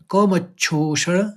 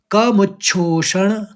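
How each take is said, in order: Both takes have the same delivery.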